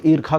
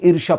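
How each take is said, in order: First: ईर्खा with a "kh" sound in place of "sh"; variant pronunciation. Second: Said in the usual way. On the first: Shown as a demonstration. (ईर्खा में "ष्य" की जगह "ख" का उच्चारण) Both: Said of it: "कुछ लोग ईर्खा कहते हैं".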